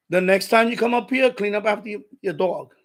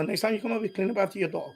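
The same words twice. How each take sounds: First: Firm retold confrontation; firm warning. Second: Lower, softer retold warning; low-key, matter-of-fact reminder; restrained request. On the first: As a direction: lay down the rule to the neighbor. Confronting neighbor about dog mess. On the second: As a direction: say it evenly, holding back. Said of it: "I didn't say, I just said".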